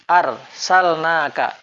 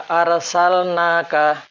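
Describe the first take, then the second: The two takes are said the same way.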